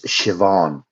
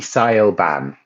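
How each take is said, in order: First: The middle consonant is a v sound. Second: The middle consonant is a b sound. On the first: The speaker calls it right. "In Irish, it's Siobhan. B H in Irish is pronounced with a V" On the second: The speaker calls it wrong. "if you were to pronounce this in English, like a English person would"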